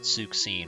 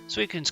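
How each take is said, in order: First: The name ends with a 'seen' sound. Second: The name ends with a 'koon' sound. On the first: The speaker calls it wrong. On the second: The speaker calls it right.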